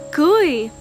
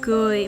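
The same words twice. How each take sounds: First: It carries the tone of the word for marry. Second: It carries the tone of the word for smile. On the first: To marry somebody. "kui means marry somebody" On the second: To smile. "kui means smile"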